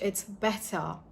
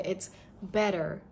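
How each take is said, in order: First: The T is a clear, true T. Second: The T sounds like a soft D. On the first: "But in British" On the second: "So in American"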